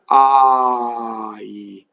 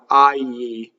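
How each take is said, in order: First: The vowel moves straight from a to e. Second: The vowel glides into a y sound. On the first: The speaker calls it right. "The Italians just go from a to e" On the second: The speaker calls it wrong. "if you have an English or American accent, you'll put a Y"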